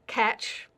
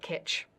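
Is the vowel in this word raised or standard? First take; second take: standard; raised. First: The vowel is said with a standard height. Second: The vowel is raised higher in the mouth.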